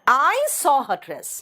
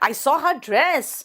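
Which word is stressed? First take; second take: I; dress. First: The stress is on the word I. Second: The stress is on the word dress.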